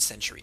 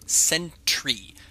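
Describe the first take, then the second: First: The T sound in the middle is dropped. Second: The T sound in the middle is stressed. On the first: The speaker calls it wrong. "I said century" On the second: The speaker calls it right. "Trying to emphasize the T"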